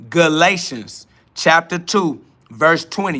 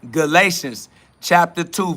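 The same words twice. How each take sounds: First: Galatians chapter two said slowly for them to note; slow dictation of the verse; slow, spelled-out repeat. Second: Said in the usual way. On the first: Shown as a demonstration. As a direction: repeat it slower so they can write it down. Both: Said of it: "You got that?".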